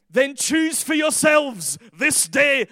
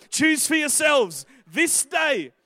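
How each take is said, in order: First: Loud, drawn-out Scottish proclamation; Scottish accent. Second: Slow, higher declamation in his own accent; own-accent proclamation. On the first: Preacher declaiming Joshua's challenge to the crowd, accidentally Scottish. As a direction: slip into a booming, slow Scottish accent. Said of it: "I don't know why I went Scottish". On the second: Preacher redoes Joshua's challenge in his own accent, slowly proclaimed. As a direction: proclaim it slowly and firmly without the Scottish. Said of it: "I don't know why I went Scottish, but". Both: Real, not acted.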